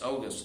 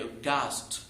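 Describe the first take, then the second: First: The stress is on the first syllable. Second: The stress is on the second syllable. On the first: It names the month. "شهر أغسطس" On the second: It means impressive or amazing. "لو قلتها أوغاست معناها شيء fantastic amazing"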